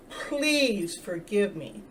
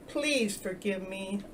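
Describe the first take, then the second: First: "Please forgive me" drawn out very slowly, each word weighted; with emphasis. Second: Put-on soft slow plea to the inner child. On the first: Telling the inner child from the heart, slow and emphatic. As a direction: lean into "Please" and stretch the whole plea slowly. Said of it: "with emphasis". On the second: Speaking tenderly to your inner child, soft and slow. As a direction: gently ask forgiveness, softer and slow. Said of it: "to the inner child". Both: Shown as a demonstration.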